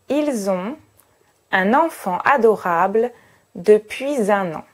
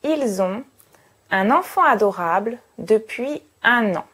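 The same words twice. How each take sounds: First: It is said formally, with the optional liaisons. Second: It is said informally, with fewer liaisons. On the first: "Je vais donc prononcer cette phrase de cette manière" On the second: "Si je veux paraître un peu moins formel"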